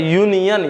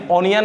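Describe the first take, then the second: First: यूनियन with a clear Y glide at the start, pitched up; correct "y" onset. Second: ओनियन with a bare O and no Y glide, pitched up; wrong "o" onset. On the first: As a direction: say union as यूनियन, opening on "yoo". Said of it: "यो, यूनियन". (यूनियन, शुरू में साफ़ "य" की ध्वनि, ऊँचे सुर में) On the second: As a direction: mispronounce union as ओनियन, starting on "o". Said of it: "ओनियन नहीं होता". (ओनियन, बिना "य" के, "ओ" से शुरू करके) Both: Shown as a demonstration.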